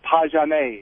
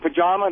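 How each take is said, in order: First: The word ends with an 'ay' vowel. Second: The word ends with an 'uh' vowel. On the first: "they call it pajame. It sounds French" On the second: "Instead of saying pajama"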